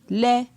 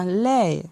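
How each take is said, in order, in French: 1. La syllabe se dit sur un ton moyen. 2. La syllabe se dit sur un ton descendant. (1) "Ton moyen" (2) "un ton descendant"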